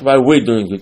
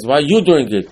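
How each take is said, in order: First: WE'RE punched loudly as the contrast; stress on WE'RE. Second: YOU punched higher and louder; stress on YOU. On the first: Teacher corrects the son's question, stress on WE'RE. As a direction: lean hard on the word WE'RE. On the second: Wicked son asks about Pesach, stress on YOU. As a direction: hit the word YOU hard. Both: Shown as a demonstration. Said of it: "Not why we're doing it".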